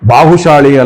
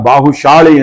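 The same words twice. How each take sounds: First: The middle consonant is a plain s sound. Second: The middle consonant is an sh sound. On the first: The speaker calls it wrong. "ಚಿಕ್ಕ ಶಾ ಅಲ್ಲ" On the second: The speaker calls it right. "ದೊಡ್ಡ ಶಾ ಬರ್ಬೇಕಲ್ಲಿ ಪ್ರಾಚೀನ ಶಬ್ದ"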